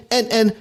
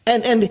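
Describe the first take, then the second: No difference in how they are said.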